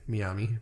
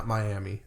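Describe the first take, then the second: First: "Miami" as mee-AH-mee in a South Asian accent; South Asian-sounding accent. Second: Said in the usual way. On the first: Real, not acted. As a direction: say "Miami" with South Asian vowels, lifted at the end. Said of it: "That sounded so brown".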